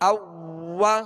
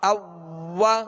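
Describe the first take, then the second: No difference in how they are said.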